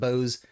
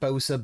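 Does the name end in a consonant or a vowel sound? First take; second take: consonant; vowel. First: The name ends on a consonant sound. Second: The name ends with an added vowel sound. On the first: The speaker calls it right. "Now it's actually called Bose" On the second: The speaker calls it wrong. "I always called it Bosa"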